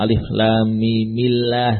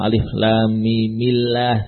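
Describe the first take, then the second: First: Mim is joined to Allah with an 'i' vowel. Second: Mim is joined to Allah with an 'i' vowel.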